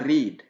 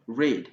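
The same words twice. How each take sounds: First: The R is rolled with the tongue forward. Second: The R is made with the tongue curled back. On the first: The speaker calls it wrong. "c'est pas read" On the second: The speaker calls it right. "le verbe lire par exemple, read"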